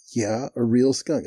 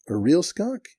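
First: Slow, falling, matter-of-fact answer; emphatic confirmation. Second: High, rising disbelief; incredulous question. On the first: Cotton confirms to the doubting manager, slow and emphatic. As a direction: confirm it slowly, landing on each word. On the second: Manager double-checks what Cotton means, high and incredulous. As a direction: ask it with pitch jumping up, incredulous. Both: Retold or imitated.

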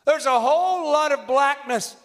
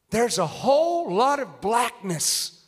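First: Said in the usual way. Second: Slow prophet's discernment. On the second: Retold or imitated. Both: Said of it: "There he goes".

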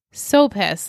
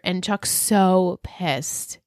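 First: Said in the usual way. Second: "so" drawn out slowly and leaned on; slow, heavy "and Chuck's so pissed"; stress on so. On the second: Shown as a demonstration. Host stressing how angry Chuck is, slow "so pissed".

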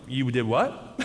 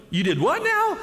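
First: Low, slightly held-back "you did what?"; stunned disbelief. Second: High-pitched mock disbelief; incredulous clerk. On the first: Retold or imitated. Hotel clerk hearing of guests' early run, low stunned disbelief. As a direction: imitate a clerk taken aback, pitched low. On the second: Hotel clerk to guests who ran the valley, high incredulous reaction. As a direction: imitate an appalled clerk, voice jumping way up.

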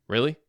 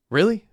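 First: A dry, mocking "Really?" at normal volume; sarcastic. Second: A much higher, louder yelled "Really?"; yelling. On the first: Roommate mocking the police promise, sarcastic. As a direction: throw the question back with scorn. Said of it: "Hecky asked sarcastically". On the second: Roommate yelling at Messi during the fight. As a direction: shout it back in his face. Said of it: "Hecky yelled at Messi". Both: A narrator's reading.

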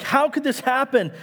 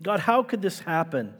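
First: High, pleading how could this happen; an exasperated plea to God; exasperated cry. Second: Said in the usual way. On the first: Acted. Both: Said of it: "It's an exasperated cry".

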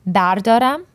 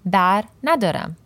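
First: "bardaram" said on its own, lifted and louder, ending on a rise; clear pronunciation. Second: "bar nadaram" with weight on "nadaram", falling at the end; clear pronunciation. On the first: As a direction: set "bardaram" apart as the positive form. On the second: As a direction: contrast it by landing on "nadaram". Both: Shown as a demonstration. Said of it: "bardaram versus bar nadaram".

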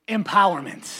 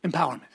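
First: Mean the word Empowerment; said with conviction. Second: Said in the usual way. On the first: Shown as a demonstration. Pastor showing the church how to say Empowerment with belief. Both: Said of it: "say it like you actually believe it".

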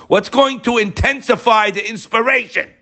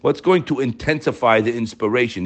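First: High-pitched, impassioned preacher's question; emphatic repeat. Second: Said in the usual way. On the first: Real, not acted.

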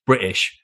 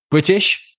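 First: "British" dropped lower with a falling tune; "British" settled down low, T softened; British pronunciation. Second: "British" lifted high and loud, T softened; "British" with a rising, louder lilt; British pronunciation. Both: Shown as a demonstration. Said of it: "we tend to miss the T".

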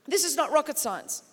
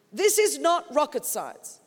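First: Said in the usual way. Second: "This is not rocket science." said again slower, each word weighted; slowed-down insistent restatement; slow emphatic repeat. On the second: Shown as a demonstration. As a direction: lean into "is" and drag it out.

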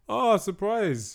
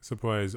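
First: High, slow, drawn-out mock surprise; sarcastic surprise. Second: Said in the usual way. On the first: Mocking the films' predictable villain, drawn-out sarcastic surprise.

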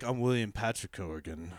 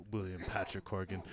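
First: Lowered, grand name announcement; self-important tone. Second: Low, soft, grand name; self-important tone. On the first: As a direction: announce your full name with gravity. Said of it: "now he's all like". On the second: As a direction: say the full name with mock gravity. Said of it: "when he's like". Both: Retold or imitated.

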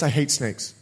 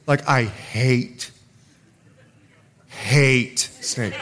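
First: Said in the usual way. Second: Hate dragged out slowly and pressed hard; stress on hate. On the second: Real, not acted. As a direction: lean slowly on each hate.

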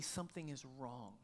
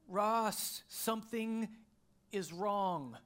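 First: Soft, low, quietly worried; wife's worried voice. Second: Higher, louder and urgent; alarmed wife. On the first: Wife telling her husband something is wrong, hushed. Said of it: "in a voice that I recognized". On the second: Wife calling to her husband from the bathroom, alarmed. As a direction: call out with sudden alarm. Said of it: "She kinda said it like that". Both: Retold or imitated.

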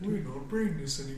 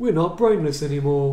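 First: Lightly voiced ogre mage line; a hint of a pompous ogre; pompous booming ogre mage. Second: Slow, louder, higher ogre mage boast; pompous booming ogre mage. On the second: Retold or imitated. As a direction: boom it out like a proud ogre mage. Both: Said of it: "that's the ogre mage voice line from Warcraft two".

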